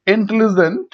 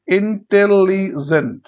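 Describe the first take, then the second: First: Said in the usual way. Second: intelligent slowly in four parts; syllable by syllable. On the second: Shown as a demonstration. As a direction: break intelligent into in-tel-li-jent. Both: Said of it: "এটাকে ভাঙলে কি হবে".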